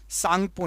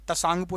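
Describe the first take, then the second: First: The word begins with an 's' sound. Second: The word begins with a 't' sound. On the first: This is how the name is read aloud. "ता silent होता है" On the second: This is how the name is written. "तसांगपो लिखा है ना"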